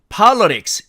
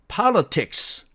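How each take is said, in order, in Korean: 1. 미국식 음절 나누기로 발음합니다. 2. 영국식 음절 나누기로 발음합니다. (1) "미국식으로 분절을 하니까" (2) "영국식으로 제대로 분절을 해서 읽어보니까"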